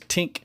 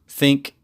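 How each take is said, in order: First: The word begins with a T sound. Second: The word begins with a TH sound. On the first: This is the Pidgin form. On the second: This is the standard English form.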